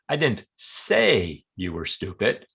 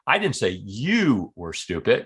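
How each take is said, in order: First: The word say carries the strongest stress. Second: The word you carries the strongest stress. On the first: It may have been conveyed some way other than speaking. "Maybe I wrote it in an email or implied it some other way" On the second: The remark was about somebody else. "I was talking about somebody else"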